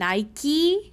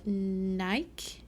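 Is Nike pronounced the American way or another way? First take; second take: American; another way. First: Nike is pronounced in the American way. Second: Nike is pronounced in a non-American way. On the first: This is how people in the States say it. "the way that it is said here" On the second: This is how the speaker learned to say it. "we've just never heard anyone say it the way you have"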